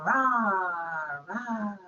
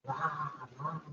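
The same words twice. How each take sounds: First: Loud playful mock roar; lion roar. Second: Quiet, gentle mock roar; a tame little roar to a frightened mouse; soft lion roar. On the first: Lion puppet roaring at the children, loud mock roar. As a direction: roar like a storybook lion for kids. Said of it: "I want to make a roaring sound". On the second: Lion greeting the little mouse, soft gentle roar. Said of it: "says the lion". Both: Shown as a demonstration.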